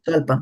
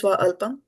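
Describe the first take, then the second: First: The two words are merged into one. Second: The two words are kept apart. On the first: The speaker calls it right. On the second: The speaker calls it wrong.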